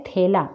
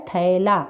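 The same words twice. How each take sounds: First: थैला with the open ai, /t̪ʰɛla/, not ठेला; correct ai vowel. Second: थैला repeated with a full ai, /t̪ʰəla/; correct ai vowel. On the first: Teacher showing pupils the correct vowel in थैला. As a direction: say थैला with a clear ai diphthong. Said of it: "लेकिन वो ठेला नहीं होता है". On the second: Teacher repeating the right form of थैला for pupils. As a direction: draw out the ai in थैला. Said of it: "क्या होता है". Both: Shown as a demonstration.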